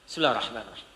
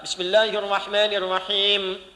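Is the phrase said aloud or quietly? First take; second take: quietly; aloud. First: The phrase is recited very quietly, barely audible. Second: The phrase is recited aloud and clearly audible. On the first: The opening formula is recited silently to oneself. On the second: The opening formula is recited audibly to the congregation. "memilih jahar"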